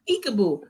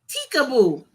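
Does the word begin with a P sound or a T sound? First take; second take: P sound; T sound. First: The word begins with a P sound. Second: The word begins with a T sound. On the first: The speaker calls it right. "And I would say" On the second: The speaker calls it wrong. "She would always say teekaboo"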